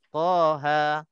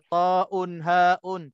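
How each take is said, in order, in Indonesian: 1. Hurufnya dibaca sebagai dua suku kata pendek. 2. Hurufnya dibaca sebagai nama lengkap. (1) "Dia baca dua sahaja" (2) "Dia tak baca taun haun, tak baca gitu eh"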